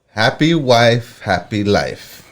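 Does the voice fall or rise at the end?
falls. The voice falls at the end, like a statement.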